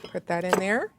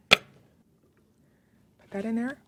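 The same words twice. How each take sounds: First: Said in the usual way. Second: Slow, higher, stretched singsong; playful slow singsong repeat; drawn-out singsong. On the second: Shown as a demonstration. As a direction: stretch "Put that in there" out slowly and playfully, a bit higher.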